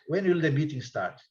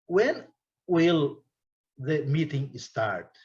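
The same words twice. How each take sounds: First: It is said quickly, with the words run together. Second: It is said slowly, one word at a time. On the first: "o americano não vai falar. Ele vai falar" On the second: "Estou falando palavra por palavra"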